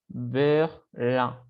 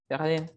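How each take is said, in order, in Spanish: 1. El nombre se pronuncia con pronunciación francesa. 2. El nombre se pronuncia con pronunciación española. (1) "en francés se pronuncia Berlin" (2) "Berlin es Berlín"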